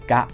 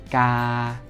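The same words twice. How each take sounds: First: The vowel is cut short. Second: The vowel is held long. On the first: "kalau kita ubah jadi pendek semua" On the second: "kita punya vokal panjang dulu"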